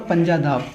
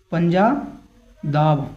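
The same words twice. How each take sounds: First: Said in the usual way. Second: पंजादाब stretched very slowly, every syllable held; drawn-out word. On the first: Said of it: "Punjab से क्या हो गया?". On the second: Shown as a demonstration. Teacher drilling the mnemonic for his students, slow and drawn out. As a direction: spell out पंजादाब slowly so it sticks. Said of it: "क्या हो गया?".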